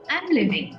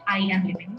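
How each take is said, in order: First: I am is contracted into one syllable. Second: I am is said as two full words. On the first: The speaker calls it right. "we say ... I'm living" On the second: The speaker calls it wrong. "not I am living"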